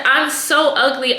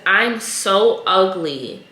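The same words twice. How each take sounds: First: A touch higher, mock childish plea; lightly voiced little girl. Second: Slow, mournful little girl's plea, lightly voiced; retold crying girl. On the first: Retelling the girl crying to her mom, lightly higher voice. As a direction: nudge the pitch up like a small girl. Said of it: "And she said". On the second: Retelling a little girl telling her mom, slow and sad. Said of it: "She was crying".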